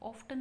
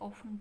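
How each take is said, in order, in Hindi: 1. T की ध्वनि उच्चारित होती है। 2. T की ध्वनि साइलेंट है। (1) "ऑफ्टन नहीं बोलते" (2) "ऑफन बोलते हैं"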